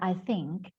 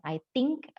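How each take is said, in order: First: Think begins with a soft th sound. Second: Think begins with a hard t sound. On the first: The speaker calls it right. "Contohnya I think" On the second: The speaker calls it wrong. "bukan I think"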